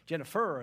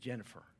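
First: The stress falls on an unusual syllable. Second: The stress falls on the usual syllable. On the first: The speaker calls it wrong. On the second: The speaker calls it right.

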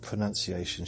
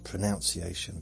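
First: The second syllable sounds like 'nun'. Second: The second syllable sounds like 'noun'.

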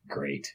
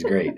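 First: Said sarcastically, with a dismissive tone. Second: Said warmly and sincerely, with genuine approval. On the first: The speaker is not actually pleased. "my sarcastic great is great" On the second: The speaker is truly pleased. "my great is great"

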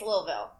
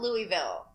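First: The name is said the way locals pronounce it. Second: The name is said the way outsiders pronounce it. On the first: The speaker is from the area. The speaker calls it right. "From Kentucky, it's Louisville" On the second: The speaker is not from the area. The speaker calls it wrong. "Out of towners call it Louisville"

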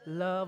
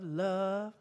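First: The word is said in a plain, neutral way. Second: The word is said in a dreamy, lovestruck way.

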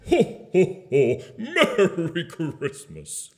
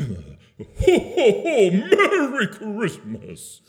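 First: It is said in a normal, neutral way. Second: It is said with very high energy.

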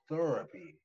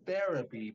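First: The first syllable has an 'ur' vowel. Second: The first syllable has an 'eh' vowel.

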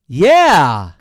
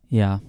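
First: It sounds lively and excited. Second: It sounds flat and unexcited.

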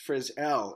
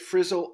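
First: The stress is on the second syllable. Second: The stress is on the first syllable. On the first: The speaker calls it right. "The pronunciation for our last name is actually Frizzell" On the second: The speaker calls it wrong. "We get Frizzle all of the time"

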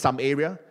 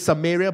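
First: It is said as two words, some area. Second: It is said as the place name Samaria. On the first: "I like to pronounce it as some area" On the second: "It says Samaria"

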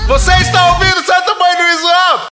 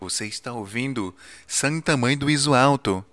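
First: It is said at normal loudness. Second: It is said very softly, close to the microphone.

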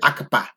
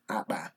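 First: An extra vowel separates the k and p sounds. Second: The k and p sounds join without a vowel. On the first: The speaker calls it wrong. "like the learners start out saying akapa" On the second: The speaker calls it right.

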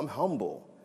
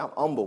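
First: The h at the start of humble is pronounced. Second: The h at the start of humble is dropped.

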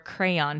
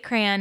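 First: The word is said as two syllables. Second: The word is said as one syllable. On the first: The speaker calls it right. "the more proper crayon pronunciation" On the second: The speaker calls it wrong. "as a one-syllable word"

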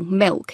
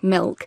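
First: The l sounds like a w vowel. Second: The l is pronounced as a clear l. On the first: "L vocalisation, so saying, for example, milk" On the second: "instead of milk"

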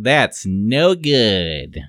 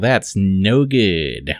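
First: It is spoken in a put-on, cartoonish character voice. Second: It is spoken in an ordinary, natural voice. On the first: The speaker calls it right. "I have to do my Urkel voice" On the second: The speaker calls it wrong. "I did it wrong"

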